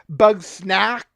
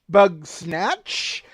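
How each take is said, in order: First: The name ends with a k sound. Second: The name ends with a ch sound.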